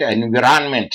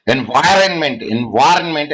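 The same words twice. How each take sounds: First: Environment as en-vi-ran-ment; alternative pronunciation. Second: Environment as en-VAI-ren-ment; pronunciation demonstration. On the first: Lecturer showing the class another pronunciation, environment as en-vi-ran-ment. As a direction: say environment with a short I, then RAN. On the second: Lecturer showing the class a pronunciation, environment as en-VAI-ren-ment. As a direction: say environment with an EYE sound in the middle. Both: Shown as a demonstration. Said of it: "Which is the correct way of pronunciation?".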